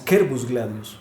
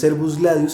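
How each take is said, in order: First: The first word begins with a k sound. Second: The first word begins with an s sound. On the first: The speaker calls it right. "sino que es Quervus Gladius" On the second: The speaker calls it wrong. "lo pronunciamos y que lo seguimos pronunciando mal"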